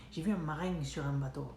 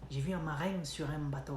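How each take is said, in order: No difference in how they are said.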